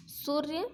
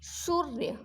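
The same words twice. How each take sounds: First: सूर्य with a short, quick u, rising at the end. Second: शौर्य said as "soorya", long ū, falling; long ū in सूर्य. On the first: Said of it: "ये छोटी मात्रा है यहाँ पे". (सूर्य में छोटा उ, गलत उच्चारण) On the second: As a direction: stretch the first vowel of शौर्य into "oo". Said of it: "बड़ी ऊ की मात्रा आएगी". (शौर्य को सूर्य जैसे, लंबा ऊ) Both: Shown as a demonstration.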